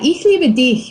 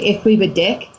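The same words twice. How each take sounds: First: The last word ends in a soft ch sound. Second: The last word ends in a hard k sound. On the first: I love you. The speaker calls it right. "ich liebe dich means I love you" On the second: I love fat. The speaker calls it wrong. "if you have awesomely bad pronunciation and you just say"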